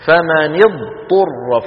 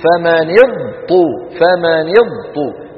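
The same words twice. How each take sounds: First: فمن اضطر drawn out very slowly, the ض sounded fully before the ط; correct articulation. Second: فمن اضطر said slowly with the ض assimilated into the ط; wrong merging. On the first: Shown as a demonstration. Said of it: "فلا بد من بيان الضاد". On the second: Retold or imitated. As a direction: imitate the students who merge اضطر. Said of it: "شو بيقولوا".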